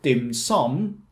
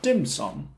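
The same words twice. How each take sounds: First: The stress is on the second syllable. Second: The stress is on the first syllable. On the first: The speaker calls it right. "Like what you would do with dim sum" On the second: The speaker calls it wrong. "not dim sum"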